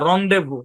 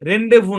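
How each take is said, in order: First: The first syllable is said like 'ron'. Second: The first syllable is said like 'ren'. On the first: The speaker calls it right. "না রন্ডেভু" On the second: The speaker calls it wrong. "রেন্ডেভু না"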